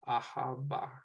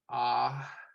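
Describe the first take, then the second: First: An h sound is heard before the b. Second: A long vowel runs straight into the b. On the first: The speaker calls it wrong. "I guess it's not ha. I, I'm pronouncing that a little bit weird" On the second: The speaker calls it right. "So it's just ah, ba, ... drawing out that that longer sound"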